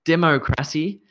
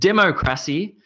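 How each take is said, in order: No difference in how they are said.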